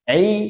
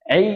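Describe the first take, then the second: First: The vowel is a pure i throughout. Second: The same.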